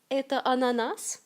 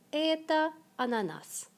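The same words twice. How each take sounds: First: Это ананас asked with the voice rising at the end; rising question tune. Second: Это ананас with the voice falling at the end; falling statement tune. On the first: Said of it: "La question se forme avec l'ordre de mots direct". (question, intonation montante sur ананас) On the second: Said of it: "Construction affirmative la plus simple". (affirmation calme, intonation descendante sur ананас) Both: Shown as a demonstration.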